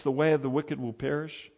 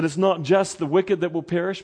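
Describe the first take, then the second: First: Way stressed with a rise. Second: "wicked" lifted and stressed. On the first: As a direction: lean on "way", not "wicked". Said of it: "Did you notice something as I read". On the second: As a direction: hit "wicked" to set up the contrast. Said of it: "it's actually the way". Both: Shown as a demonstration.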